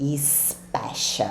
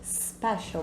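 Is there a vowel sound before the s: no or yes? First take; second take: yes; no. First: An extra vowel sound comes before the s. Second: The word starts directly with the s sound. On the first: The speaker calls it wrong. "Eu escuto muitos alunos dizerem special. Não tem i no começo" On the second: The speaker calls it right. "bem levinho"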